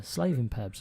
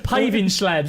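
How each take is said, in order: First: "slaving pubs" with the first sounds swapped, said as if meaning paving slabs; "slaving pubs" blurted as a spoonerism; slip of the tongue. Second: "Paving slabs" said clearly and loudly as the right words; "Paving slabs" with firm correcting emphasis; corrected. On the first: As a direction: mix up the words into "slaving pubs" without noticing. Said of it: "Slaving pubs". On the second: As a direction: pronounce "Paving slabs" carefully, putting the slip right. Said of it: "That's it". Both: Real, not acted.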